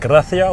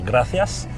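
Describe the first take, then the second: First: The final s sound is dropped. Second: The final s sound is pronounced. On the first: This is how Andalusians say it. "ils disent gracia" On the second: This is the standard Spanish form. "au lieu de dire gracias"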